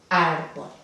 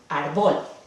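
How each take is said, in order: First: The stress is on the first syllable. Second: The stress is on the second syllable. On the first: The speaker calls it right. "la sílaba tónica no está en último puesto" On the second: The speaker calls it wrong. "debería de caer aquí. ... No es así que se pronuncia la palabra"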